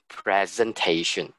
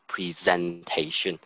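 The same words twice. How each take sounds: First: It keeps the noun's stress pattern. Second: It follows the verb's stress pattern. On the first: The speaker calls it right. "you still maintain the noun um, pronunciation. It's actually presentation" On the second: The speaker calls it wrong. "not presentation"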